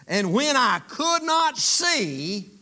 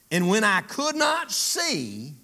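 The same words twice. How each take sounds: First: Slow and louder, "And when I could not see" stressed hard and high, rising on "not"; emphatic reading. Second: Slow read with a rise on not; first reading. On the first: Preacher repeating the verse for the church, louder and higher. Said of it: "Look at what Paul says". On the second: Preacher reading the verse aloud, slow and measured. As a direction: read "And when I could not see" slowly, rising on "not". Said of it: "But, but watch this". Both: Shown as a demonstration.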